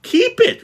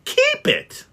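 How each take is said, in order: First: Much higher and louder echo; repeated in disbelief. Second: Much higher, squeaking in disbelief; can't believe what he hears; incredulous. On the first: Nephew echoing Scrooge in disbelief. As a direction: echo it back amazed. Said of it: "repeated Scrooge's nephew". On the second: Nephew astonished at Scrooge, shrill disbelieving question. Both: Acted.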